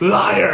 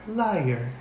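First: It is said loudly and assertively, like all caps. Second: It is said in Siri's flat computer voice.

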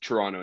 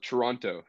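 First: The second t is silent and said quickly. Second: The second t is clearly pronounced. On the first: It is how locals say the name. The speaker calls it right. "The second T is silent. You say it quickly" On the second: It is how outsiders say the name. The speaker calls it wrong. "I like how you guys call it Toronto"

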